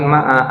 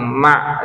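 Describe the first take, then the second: First: The word ends with an added final vowel. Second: The word ends on a consonant, with no vowel. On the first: The speaker calls it wrong. "bukan ma'a" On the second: The speaker calls it right. "kan disukunkan ma itu ya"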